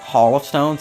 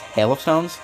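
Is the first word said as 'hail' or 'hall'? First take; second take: hall; hail. First: The first word sounds like 'hall'. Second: The first word sounds like 'hail'. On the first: The speaker calls it wrong. "I accidentally pronounced it Hall of Stones" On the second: The speaker calls it right. "It's Hail of Stones"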